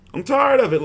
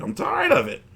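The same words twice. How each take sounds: First: The same line again, really meaning it; fed up, emphatic repeat. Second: Said in the usual way. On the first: Real, not acted. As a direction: lean into tired to show you're sick of it. Repeating his complaint about channel strikes.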